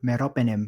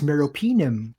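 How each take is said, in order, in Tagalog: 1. Binibigkas ito ayon sa Filipino na pagbigkas. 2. Binibigkas ito ayon sa American na pagbigkas. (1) "bro ang tawag ko" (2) "yun pala is"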